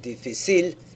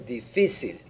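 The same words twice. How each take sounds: First: The stress is on the last syllable. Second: The stress is on the middle syllable. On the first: The speaker calls it wrong. "If I didn't have the slash over the second I, I would have" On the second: The speaker calls it right. "We say"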